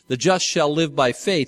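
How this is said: The stress is on the word faith.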